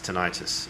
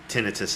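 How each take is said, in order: First: The stress follows the American pattern. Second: The stress follows the British pattern. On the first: "American it's tinnitus" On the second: "in British it's tin- tinnitus"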